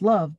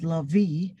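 First: The word ends on the v sound. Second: A vowel is sounded after the v. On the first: The speaker calls it right. "you read it as love" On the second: The speaker calls it wrong. "you don't read the word love as lovey"

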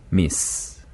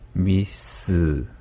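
First: It ends on a bare s with no vowel. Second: It ends with an added 'eu' vowel after s. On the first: "으 몸을 빼면" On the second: "으 몸을 집어넣으면"

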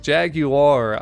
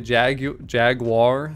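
First: The word is said a less common, non-American way. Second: The word is said the common American way. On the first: "I think it sounds cooler, just more unique" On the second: "most people say Jaguar in America"

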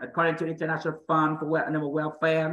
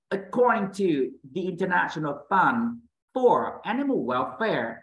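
First: It is read slowly and flat, without emphasis. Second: It is read with lively, varied emphasis.

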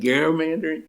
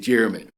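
First: The word begins with a hard G sound. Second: The word begins with a J sound. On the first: It follows how the governor's name was said. The speaker calls it right. "it's properly gerrymandering after uh, after Eldridge Gerry" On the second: It is the way most people say it. The speaker calls it wrong. "They say gerrymandering"

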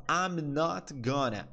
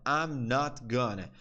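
The two takes are said the same way.

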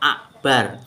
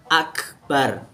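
First: A glottal stop replaces the k sound. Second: A clear k sound is used in the middle. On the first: The speaker calls it wrong. "pakai hamzah" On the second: The speaker calls it right. "Yang benar pakai kaf"

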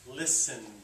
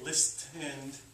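First: The T sound is silent. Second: The T sound is clearly pronounced. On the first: The speaker calls it right. "It's just listen" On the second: The speaker calls it wrong. "So we don't say listened"

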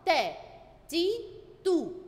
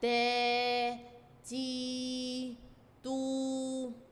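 First: The vowels are short and said quickly. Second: The vowels are long and drawn out. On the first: "الحركات القصيرة بتتنطق على طول بسرعة، مدتها قليلة" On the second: "بحركات طويلة هنطول فيها"

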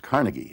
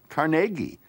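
First: The name is said the usual American way. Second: The name is said the Scottish way. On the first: "as in Carnegie Hall and the Carnegie Institute and all those Carnegie libraries" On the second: "in Scotland, his birthplace, the family name is pronounced Carnegie"

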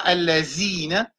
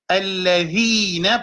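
First: The consonant is a plain z sound. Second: The consonant is a voiced th, as in the. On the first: The speaker calls it wrong. "pas allazine" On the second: The speaker calls it right. "c'est the"

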